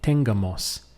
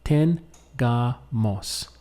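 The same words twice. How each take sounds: First: The stress falls on an unusual syllable. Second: The stress falls on the usual syllable. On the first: The speaker calls it wrong. "be careful that you don't say tengamos ... if you emphasize it or pronounce the word in that way, you will not be understood" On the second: The speaker calls it right. "So it must be tengamos"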